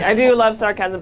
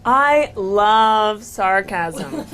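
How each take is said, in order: First: Said in the usual way. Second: Very slow, drawn-out sarcastic declaration. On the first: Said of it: "No, seriously". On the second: Pretend. Panelist opening a timed speech on sarcasm, sarcastic. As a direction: stretch each word with dry irony. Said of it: "No, seriously, I do love sarcasm".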